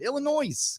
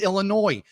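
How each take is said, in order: First: The final S is pronounced aloud. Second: The final S is silent. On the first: The speaker calls it wrong. "I used to say it when I was a kid. Illinois, because there's an S" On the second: The speaker calls it right. "it's Illinois"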